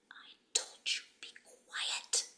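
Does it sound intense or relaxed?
intense. It is said with firm, intense engagement.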